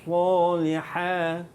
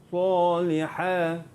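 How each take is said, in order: No difference in how they are said.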